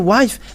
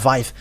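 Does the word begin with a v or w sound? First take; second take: W sound; V sound. First: The word begins with a w sound. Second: The word begins with a v sound. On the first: "if you say wife, ah, they are uh, taking it as something else" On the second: "they uh, pronounce it uh"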